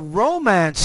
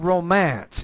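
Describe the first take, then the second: First: The stress is on the first syllable. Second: The stress is on the second syllable. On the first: It is used as an adjective. The speaker calls it right. "because I'm I'm focusing on using this as an adjective" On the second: It is used as a verb. The speaker calls it wrong. "if I'm using it as a verb, I would put the stress in the second syllable"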